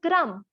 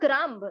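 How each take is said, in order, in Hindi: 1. अंत का b चुप रहता है। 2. अंत में b की आवाज़ बोली जाती है। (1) "but it's not. It's a crumb" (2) "we always say it's a crumb"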